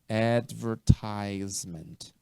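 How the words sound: It is said with an American accent.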